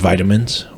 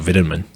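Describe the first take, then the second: First: It is said with an American pronunciation. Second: It is said with a British pronunciation.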